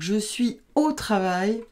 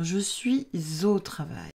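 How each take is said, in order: First: Suis and au are said separately, with no linking sound. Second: A z sound links suis to au. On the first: The speaker calls it wrong. "c'est un petit peu abrupt, c'est plus rugueux" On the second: The speaker calls it right. "on fait la liaison dans ces cas-là"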